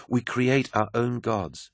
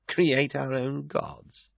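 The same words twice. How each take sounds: First: Said in the usual way. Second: Slow, higher, disbelieving question; incredulous echo. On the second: Acted. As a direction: drag it out in disbelief. Carcassy echoes her in disbelief.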